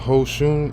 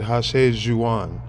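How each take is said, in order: First: The name is said as two syllables, 'Hoshun'. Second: The name is said as three syllables, 'Hashe Juan'. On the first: The speaker calls it wrong. "I said uh, Hoshun. It's not Hoshun" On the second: The speaker calls it right. "he said Hashe Juan"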